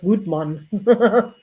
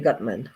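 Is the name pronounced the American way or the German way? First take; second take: German; American. First: The name is said with a German pronunciation. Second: The name is said with an American pronunciation. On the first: "that's a German name. That's Gutmann" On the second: "Americans will probably say Gutman"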